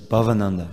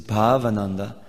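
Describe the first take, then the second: First: The first A vowel is short. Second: The first A vowel is long. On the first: It means the bliss of the material world. "short A" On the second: It means the bliss of spiritual emotions. "it means like the bliss of spiritual emotions"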